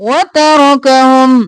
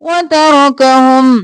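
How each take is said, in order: Both takes have the same delivery.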